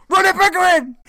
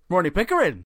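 First: Very high, very loud scream of the name; full-blast mock outrage; hammed-up furious yell. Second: Raised-pitch name declaration; first rung of a mock shouting match; mock proud announcement. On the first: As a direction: imitate a man screaming his own name. Third take, climax of escalating shouts. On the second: First of three escalating name shouts.

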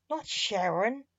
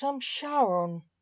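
First: Sharon said with a rising tune; mocked name. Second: Charon said with a long drawn final n; correct name. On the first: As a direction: contrast Sharon against the true name. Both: A narrator's reading.

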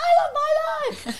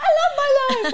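First: High, loud, laughing shout; imitating a child. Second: High, loud laughing call; imitating a child. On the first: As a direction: shout it like a gleeful kid. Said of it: "Bella's like". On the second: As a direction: cheer it like a happy boy. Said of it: "Harry's like".

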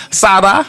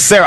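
First: "Sada" with a tapped d-like sound for the r; mimicking an accent on "Sada", pitched up; imitated accented name. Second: Said in the usual way. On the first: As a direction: say "Sada" high, with a rising questioning end. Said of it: "You can't be imitating people".

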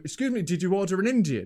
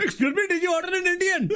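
First: Put-on Indian accent. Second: High, laughing mock Indian accent; hammed-up Indian accent with a head wobble. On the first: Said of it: "one of these accents". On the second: Friend helps retell the delivery man in a mock Indian accent. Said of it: "thanks for the assist on that one".

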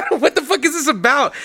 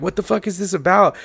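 First: High, rising disbelief on what; baffled at a 2am message out of nowhere; incredulous. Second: Said in the usual way. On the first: Retold or imitated. Retelling confused reaction to cohost, high incredulous question.

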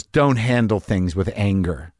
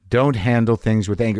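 First: Slow, calm, lower advice. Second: Said in the usual way. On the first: Retold or imitated. Gate worker calmly advising the angry traveler, slow and gentle. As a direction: say it gently and slowly, like a wise elder. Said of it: "and he goes". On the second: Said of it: "in that heat of that moment".

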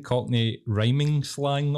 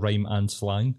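First: "rhyming" run together as one word, ending in -ing; saying "rhyming". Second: "rhyme and" as separate words before "slang"; saying "rhyme and". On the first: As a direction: stretch out "rhyming slang" slowly to show it. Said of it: "The way you're saying it". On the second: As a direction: split it clearly into "rhyme and slang". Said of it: "instead of". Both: Shown as a demonstration.

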